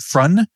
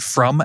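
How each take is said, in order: First: The word ends with an n sound. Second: The word ends with an m sound. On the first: The speaker calls it wrong. "but you pronounce it frun by accident" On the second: The speaker calls it right. "if you're trying to say the word from"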